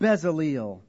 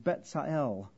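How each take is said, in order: First: It uses the familiar anglicized pronunciation. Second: It uses a Hebrew-style pronunciation. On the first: This is the customary way people say it. The speaker calls it wrong. "we would usually say" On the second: This is the more accurate original form. The speaker calls it right. "Better pronunciation is Betzael"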